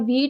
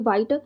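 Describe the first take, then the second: First: The vowel sounds like the one in 'feet'. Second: The vowel sounds like the one in 'white'. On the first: It is the usual pronunciation. The speaker calls it right. "वैसे तो इसको वीट pronounce करते हैं" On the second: It follows the spelling. The speaker calls it wrong. "Spelling इसके वाइट है"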